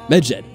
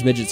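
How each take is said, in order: First: The word is said slowly and carefully. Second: The word is said quickly and sounds blurred. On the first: The speaker calls it right. "Don't say it too quickly" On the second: The speaker calls it wrong. "I said that quickly and it sounded like I said Midget"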